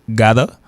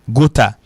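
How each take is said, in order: First: The middle consonant is a soft d-like tap. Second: The middle consonant is a clear, crisp t. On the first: The speaker calls it right. "Il prononce Gada" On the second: The speaker calls it wrong. "en pile monde prononce Gota. Donc, il pas prononcer Gota"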